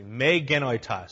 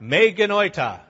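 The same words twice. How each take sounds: First: Said in the usual way. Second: "Me genoita" said louder and higher, hammered out; emphatic Greek phrase. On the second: Shown as a demonstration. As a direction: proclaim "Me genoita" with force. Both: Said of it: "you all can say this with me".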